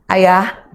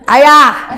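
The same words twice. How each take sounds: First: It is called at a normal pitch. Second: It is called at a very high pitch.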